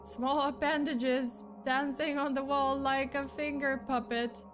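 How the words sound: It is read in a puzzled, incredulous tone.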